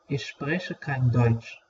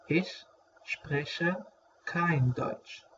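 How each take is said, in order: First: Said in the usual way. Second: Softer, slow repeat with a pause between words. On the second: Shown as a demonstration. Teacher repeating a German phrase for learners, slow and separated. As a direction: break the phrase apart for learners.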